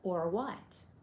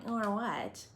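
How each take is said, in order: First: It sounds like a sincere, curious question. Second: It sounds like a sassy, defiant challenge.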